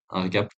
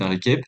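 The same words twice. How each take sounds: First: Said in the usual way. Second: RÉCAP mispronounced, last vowel like "eh"; slip of accent. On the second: Real, not acted. Trader explaining monthly review, accent slip on RÉCAP said "ré-kep". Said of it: "excusez mon accent".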